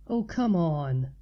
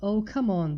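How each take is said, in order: First: Slow, lower exasperated drawl; weary dismissive groan of a friend; eye roll. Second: Said in the usual way. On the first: A narrator's reading. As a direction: roll the eyes in the voice, dragging it out. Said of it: "she said with an eye roll".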